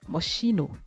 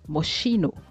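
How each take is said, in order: No difference in how they are said.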